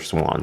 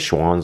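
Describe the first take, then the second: First: The name begins with an 's' sound. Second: The name begins with a 'sh' sound. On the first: This is how the speaker says it. "I say Swans" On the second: This is how some other people say it. "I think some people call it Schwans"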